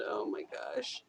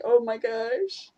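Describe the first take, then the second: First: Low, much softer Oh my gosh; hushed aside. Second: Slow, stretched-out Oh my gosh; drawn-out exasperation. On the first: Real, not acted. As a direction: drop Oh my gosh almost to a breath. Aside about angry Canadians. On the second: Retold or imitated. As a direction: let Oh my gosh sag slowly in disbelief. Exasperated reaction to a stereotype.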